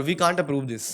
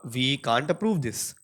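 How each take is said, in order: First: Said in the usual way. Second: Drawn out, slow, hitting approve; flatly refuse, stressing approve; blunt and direct. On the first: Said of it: "These phrases are grammatically correct English, but the tone". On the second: Shown as a demonstration. Director turning down a project, blunt and slow. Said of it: "too direct".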